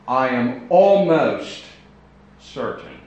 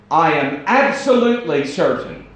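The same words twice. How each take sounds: First: "almost" drawn out, louder and slow; "almost" held and stretched; stress on almost. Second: "absolutely" punched higher and louder; stress on absolutely. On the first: Quoting someone hedging. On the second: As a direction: hit "absolutely" hard and sure. Contrasting almost with absolutely. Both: Shown as a demonstration.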